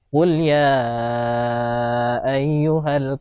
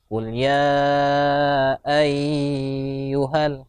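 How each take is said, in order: First: The first vowel of ayyuhal is kept short. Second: The first vowel of ayyuhal is drawn out long. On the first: The speaker calls it right. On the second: The speaker calls it wrong.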